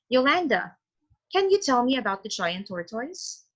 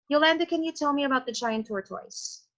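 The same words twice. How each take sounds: First: There is a pause after the name. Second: There is no pause after the name.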